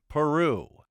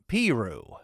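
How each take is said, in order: First: Peru is said the usual, well-known way. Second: Peru is said the local Indiana way. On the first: This is not how the resident says it. "not Peru" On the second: This is how the hometown's resident says it. "pronounces the name of her hometown Piru"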